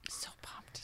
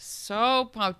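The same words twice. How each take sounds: First: Hushed excited whisper. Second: Said in the usual way. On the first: Real, not acted. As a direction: whisper it like a secret. Whispered then repeated aloud.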